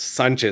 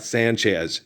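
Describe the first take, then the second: First: The name is pronounced the Spanish way. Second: The name is pronounced the English way. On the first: The speaker calls it right. "It's Sanchez, ... that's how we say it in Espanol" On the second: The speaker calls it wrong. "it's not Sanchez"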